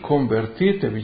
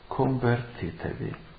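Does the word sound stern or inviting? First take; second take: stern; inviting. First: It is said in a stern, reproaching tone. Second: It is said in a warm, inviting tone. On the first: Change your way of thinking and living, and obey. "Il tono di voce di Giovanni Battista diceva così" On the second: Come and follow me. "il tono di voce con cui Gesù pronuncia la stessa parola"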